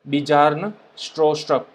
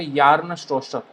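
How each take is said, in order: First: The first name starts with a B sound. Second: The first name starts with a Y sound. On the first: "इस तरह से इसको प्रोनाउंस किया जाता है" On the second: "बी और जे को कंबाइन करके य बोलते हैं"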